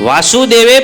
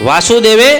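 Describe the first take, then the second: Both takes have the same delivery.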